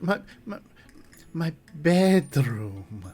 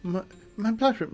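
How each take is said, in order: First: Halting start, then BEDROOM very slow and careful; struggle, then stretch out bedroom precisely; laboured correction. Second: High voice, bedroom coming out as "blood room"; lisped bedroom. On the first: Chuck corrects himself for the guest, BEDROOM slow and laboured. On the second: Chuck repeats himself to the guest, lisping "blood room". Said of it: "I have a lisp". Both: Acted.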